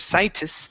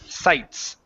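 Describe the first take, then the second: First: An extra vowel sound is added inside the word. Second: No extra vowel sound is added inside the word. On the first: The speaker calls it wrong. "You you're adding vowels in there" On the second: The speaker calls it right. "remember that e at the very end is silent"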